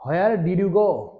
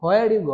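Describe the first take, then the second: First: Each word of Where did you go? drawn out slowly; slow careful demo. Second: Where did you go? run together fast and loud; quick natural version. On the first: Teacher slowly models the question for students. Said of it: "আমরা যদি where did you go?". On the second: Teacher gives the quick native version of the question. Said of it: "আমরা catch করতে পারি না কেন?". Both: Shown as a demonstration.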